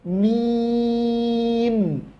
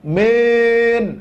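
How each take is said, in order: First: The vowel is a clear 'i' sound. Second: The vowel drifts toward an 'e' sound. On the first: The speaker calls it right. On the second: The speaker calls it wrong.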